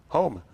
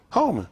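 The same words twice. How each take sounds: First: Said in the usual way. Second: Urgent plea. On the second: Shown as a demonstration. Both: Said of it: "I want you to hold me".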